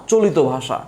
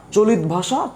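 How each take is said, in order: First: চলিত as "cho-li-to", falling on ভাষা; চলিত in three syllables, settling downward; open-ending variant. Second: চলিত as "cho-lit", higher, rising on ভাষা; চলিত closed on t, questioning lift; closed-ending variant. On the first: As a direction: say "cholito bhasha" with an o ending on চলিত. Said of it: "কেউ কেউ বলে চলিত ভাষা". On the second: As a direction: say "cholit bhasha?" with no vowel after the t of চলিত. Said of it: "কেউ কেউ আবার চলিত বলে". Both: Shown as a demonstration.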